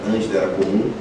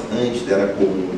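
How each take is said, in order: Both takes have the same delivery.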